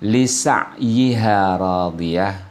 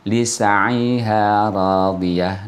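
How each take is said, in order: First: The vowel stays in its original position. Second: The vowel is moved onto the neighbouring consonant. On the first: "Seperti kata" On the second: "kemudian dipindahkan harokatnya menjadi pelafalan"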